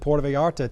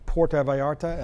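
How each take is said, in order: First: The name is said with a country accent. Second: The name is said with a more Spanish-like sound. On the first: "I didn't say that right. I got a little country accent here" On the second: "I don't know if still I said it right"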